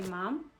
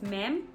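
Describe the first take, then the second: First: The vowel is an open 'o', like 'mom'. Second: The vowel is a flat 'a', like 'mam'. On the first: This is how the locals say it. "for them they pronounce it as mom" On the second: This is how South Africans say it. "we as South Africans say ma'am"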